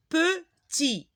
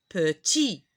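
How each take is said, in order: First: Petit split as pe, tit, higher pitched; syllable by syllable. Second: Said in the usual way. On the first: Shown as a demonstration. Teacher modelling petit for learners, broken into two syllables. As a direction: sound out PETIT with a gap after pe. Word split, then repeated whole.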